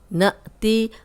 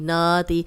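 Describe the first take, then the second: First: The first vowel stops with a sharp catch. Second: The first vowel is drawn out without a catch. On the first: The speaker calls it right. "Hamza पे जज़्म है तो हम इसको हिला के पढ़ रहे हैं, झटके से पढ़ रहे हैं" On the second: The speaker calls it wrong. "अगर हम इसको ऐसे नहीं पढ़ेंगे"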